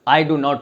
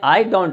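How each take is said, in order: First: 'Do not' is said as two full words. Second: 'Do not' is shortened to one syllable, 'don't'. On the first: The speaker calls it wrong. "तो कोई नहीं बोलता है" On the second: The speaker calls it right. "सभी लोग बोलते हैं"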